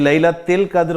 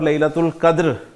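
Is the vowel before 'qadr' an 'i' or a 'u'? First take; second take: i; u. First: The middle syllable is said with an 'i' vowel. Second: The middle syllable is said with a 'u' vowel. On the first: "ये तिल और तुल वाला मसला" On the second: "ये तिल और तुल वाला मसला"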